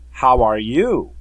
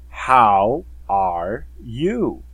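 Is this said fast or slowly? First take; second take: fast; slowly. First: The words are said at a fast pace. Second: The words are said at a slow pace. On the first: "now I'm going to read it faster" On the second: "We're going to read it slower"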